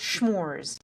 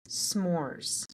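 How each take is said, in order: First: The word begins with a SH sound. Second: The word begins with a plain S sound. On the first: The speaker calls it wrong. "It's not schmores" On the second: The speaker calls it right. "it's s'mores. There's no H in there"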